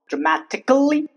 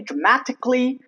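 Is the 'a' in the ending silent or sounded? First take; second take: sounded; silent. First: The a in the ending is sounded. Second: The a in the ending is silent. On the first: The speaker calls it wrong. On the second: The speaker calls it right.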